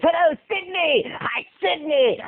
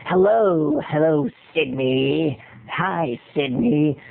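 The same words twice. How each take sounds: First: Higher-pitched phone terrorizer; same creepy caller, pitched up high; high, stretched-out villain greeting; alternate audition take. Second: Low, slow phone terrorizer; deep, drawn-out stalker greeting; audition villain voice. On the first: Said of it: "I did like a thousand ways". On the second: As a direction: creep down low as the menacing caller. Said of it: "picked up the script and went". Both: Shown as a demonstration.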